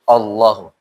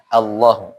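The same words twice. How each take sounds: First: The vowel sounds rounded, like an o. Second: The vowel sounds like an open a. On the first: The speaker calls it wrong. "Jangan sampai Allah" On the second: The speaker calls it right. "Jadi A"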